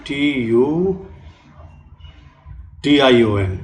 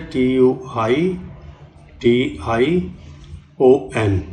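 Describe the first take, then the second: First: Said in the usual way. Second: "T U I" spelled slowly, then "T I O N", each letter separate; careful correct spelling. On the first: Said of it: "लोग क्या कर देते हैं". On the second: Shown as a demonstration. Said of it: "और सही क्या होती है".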